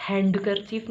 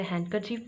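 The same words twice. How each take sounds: First: हैंडकरचीफ with a sounded D, HAND-ker-chief; wrong pronunciation. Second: हैंडकरचीफ with silent D, HAN-ker-chief; correct pronunciation. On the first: Teacher corrects learners, demonstrating the wrong way. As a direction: stress the unwanted D in हैंडकरचीफ. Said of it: "हैंडकरचीफ नहीं बोलेंगे". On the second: Teacher corrects learners, demonstrating the right way. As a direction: drop the D from हैंडकरचीफ. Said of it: "इसे हैंडकरचीफ बोलेंगे". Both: Shown as a demonstration.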